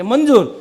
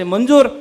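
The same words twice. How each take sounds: First: મંજૂર said flat with a falling end; accused woman gives in to the judge, a falling, resigned reply. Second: મંજૂર asked as a loud, pointed question. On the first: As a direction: accept it with a settled, falling મંજૂર. The accused accepts the sentence. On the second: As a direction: press her with મંજૂર?, a judge demanding assent. Judge asks the accused to accept. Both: Retold or imitated.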